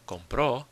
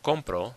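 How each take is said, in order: First: The stress is on the last syllable. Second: The stress is on the first syllable. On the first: "the stress is on the end" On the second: "which means I buy"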